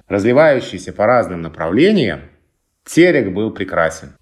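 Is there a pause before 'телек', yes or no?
yes. The opening phrase is set apart by a pause.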